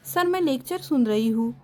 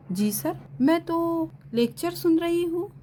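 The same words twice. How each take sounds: First: Said in the usual way. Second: Anxious, higher, with a rising end; nervous insistence to the teacher; flustered student. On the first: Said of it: "notebook दिखाते हुए बोली". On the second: A narrator's reading. Student nervously tells the teacher she is listening. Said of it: "हीर परेशान सी बोली".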